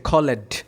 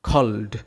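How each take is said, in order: First: The e is voiced, making an extra syllable. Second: The e is silent, so there is one syllable. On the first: The speaker calls it wrong. "এটাকে কিন্তু আমরা উচ্চারণ এইভাবে করি না যে খলেড" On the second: The speaker calls it right. "ই বাদ দিয়ে উচ্চারণ করি"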